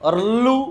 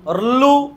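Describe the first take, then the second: The two takes are said the same way.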